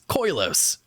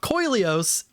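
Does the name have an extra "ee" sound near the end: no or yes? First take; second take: no; yes. First: No extra "ee" sound comes before the last syllable. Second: An extra "ee" sound comes before the last syllable. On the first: The speaker calls it right. "it's Koilos" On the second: The speaker calls it wrong. "always adding an extra I in there"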